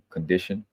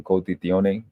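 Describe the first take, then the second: First: Said in the usual way. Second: "condizione" said as a foreign word; foreign pronunciation. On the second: Shown as a demonstration. Speaker explaining the word God, "condizione" in foreign pronunciation. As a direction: say "condizione" in its foreign form, not as English. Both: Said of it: "I say it like that because".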